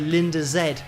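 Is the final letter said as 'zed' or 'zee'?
zed. The letter is pronounced 'zed', British style. The speaker calls it wrong.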